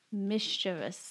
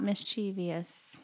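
First: Slow "mischievous" as MIS-chi-vus; three careful syllables in "mischievous"; correct pronunciation. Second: Slow "mischievous" as mis-CHEE-vee-us; wrong pronunciation. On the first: Wife reading the dictionary breakdown, "mischievous" slowly as MIS-chi-vus. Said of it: "breakdown of the syllables". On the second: Wife showing what to avoid, "mischievous" slowly as mis-CHEE-vee-us. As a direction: add an EE to "mischievous", stressing CHEE. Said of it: "Not mischievous". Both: Shown as a demonstration.

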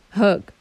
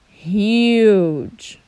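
First: "hug" with a quick short uh. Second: "huge" with a long drawn you sound, louder; long u demo. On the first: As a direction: clip "hug" fast. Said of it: "You say the letter U so quickly". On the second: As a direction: stretch "huge" as hyooj. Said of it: "when you put E in the end". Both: Shown as a demonstration.

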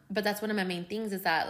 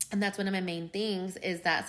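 First: Said in the usual way. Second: Words around a coffee sip; talking between sips of coffee; while sipping a drink. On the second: Real, not acted. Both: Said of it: "sorry guys, I'm drinking coffee too".

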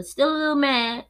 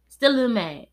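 First: Higher and louder, lingering irritation; still a little mad. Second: Still a little mad. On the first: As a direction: let the grudge show. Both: Real, not acted. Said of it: "I'ma say that".

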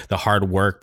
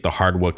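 First: Said in the usual way. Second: "work" said with a short oo, like "wook"; accented slip. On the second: Real, not acted. Podcaster praising bands' effort, "work" slips into an accented "wook". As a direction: let "work" lose its r, rhyming with "look".

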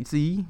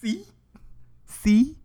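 First: Told you so. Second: Triumphant. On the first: Retold or imitated. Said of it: "And I'm like". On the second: Real, not acted. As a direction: crow "See?" like you called it. Gloating repeat.

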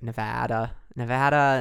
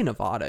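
First: "Nevada" with a short a, as in "cat"; local pronunciation. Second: "Nevada" with a broad ah in the middle; outsider pronunciation. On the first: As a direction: say "Nevada" the local way, flat a in the middle. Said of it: "I know we say, like". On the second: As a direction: say "Nevada" as ne-VAH-da. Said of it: "If you say Nevada". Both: Shown as a demonstration.

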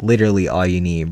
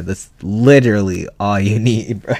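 First: Said in the usual way. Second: Laughing through the words; breaking into a laugh mid-line. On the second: Real, not acted.

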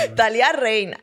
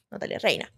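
First: "Natalia Reina" said through a laugh; amused at her own joke, laughing out "Natalia Reina"; laughing repeat. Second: "Natalia Reina" whispered, low and soft; secretive whisper of "Natalia Reina"; whispered aside. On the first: Real, not acted. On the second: Pretend. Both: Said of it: "Me encanta".

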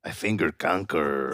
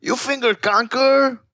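First: Low and softer confession; mock guilty mumble; low sheepish admission. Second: Mock outraged friend; shocked high question. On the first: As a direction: own up to it quietly. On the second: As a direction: voice jumps way up in disbelief.

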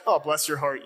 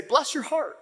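First: Lightly patronizing, a hint of a sneer; mock sarcastic. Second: Light Georgia kindness, meant honestly; sincere bless your heart. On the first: Pastor mimicking how northerners say it, mildly sarcastic. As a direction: pretend sympathy, mild put-down. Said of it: "a sarcastic". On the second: Retold or imitated. Pastor quoting Georgia folks, sincere and kind. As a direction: say it like you truly mean it. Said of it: "And they actually mean it".

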